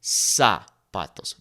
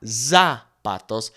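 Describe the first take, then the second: First: "zapatos" slowly with a clear S; slow correct demo; Spanish S sound. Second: "zapatos" slowly with a buzzing Z; slow wrong demo; wrong Z sound. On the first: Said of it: "It is S, like a snake". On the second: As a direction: drag out "zapatos" with an English Z. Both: Shown as a demonstration.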